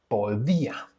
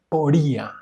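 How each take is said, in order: First: The d is a soft, th-like sound. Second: The d is a hard, stopped sound. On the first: The speaker calls it right. "it's more like a th sound in English" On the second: The speaker calls it wrong. "this is not podía"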